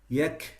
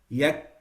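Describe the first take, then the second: First: The final k is released with a breath. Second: The final k is cut off abruptly. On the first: The speaker calls it right. "it becomes yak" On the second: The speaker calls it wrong. "instead of stopping at yak"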